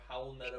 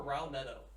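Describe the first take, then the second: First: The name begins with an H sound. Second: The name begins with an R sound. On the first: The speaker calls it right. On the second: The speaker calls it wrong.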